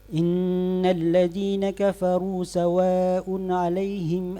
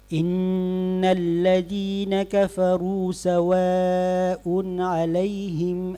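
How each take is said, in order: First: It is recited even more quickly, vowels still full. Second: It is recited quickly with full vowel lengths. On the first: "atau mungkin bisa lebih cepat lagi" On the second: "hadar yang cepat ... tidak mengurangi harakat"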